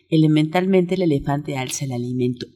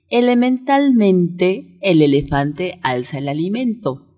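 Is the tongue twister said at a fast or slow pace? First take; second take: fast; slow. First: It is said at a much quicker pace. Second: It is said at a slower, easy pace.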